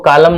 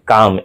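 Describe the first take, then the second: First: An L sound is pronounced before the M. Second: No L sound is pronounced before the M. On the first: The speaker calls it wrong. "इसको कालम नहीं पढ़ना है जी" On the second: The speaker calls it right. "यानी एम के पहले एल silent होता है"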